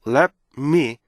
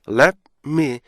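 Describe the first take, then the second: No difference in how they are said.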